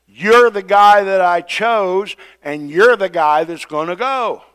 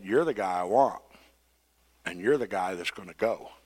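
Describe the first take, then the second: First: Loud, high and slow, you're the guy hammered home; angry God. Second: Soft and low, calmly decided, you're the guy; calm firm God. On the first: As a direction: lay down the law on the chosen one. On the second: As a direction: quietly settle it, no argument, you're the guy. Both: Retold or imitated. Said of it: "God said".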